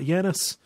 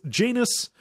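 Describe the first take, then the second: First: The name is said like the Greek god's. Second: The name is said rhyming with 'anus'. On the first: The speaker calls it right. "It's not Janus. You know, it's not like the Greek god" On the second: The speaker calls it wrong. "It's Janus, like anus, um, is how they say it, and that bothers me"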